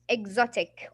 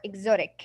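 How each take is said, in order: First: It is said with a British accent. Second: It is said with an American accent.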